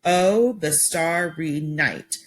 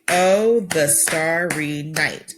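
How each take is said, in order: First: Slow "the starry night", each beat set apart; syllable by syllable. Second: Slow "Oh, the starry night", each syllable spaced apart. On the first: Teacher counting syllables aloud for students, slowly. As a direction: clap out "starry" as two beats. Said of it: "and I could count that". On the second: Teacher showing the class how to count syllables, slowly. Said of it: "maybe to clap the syllables". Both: Shown as a demonstration.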